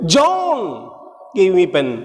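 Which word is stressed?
John. The stress is on John.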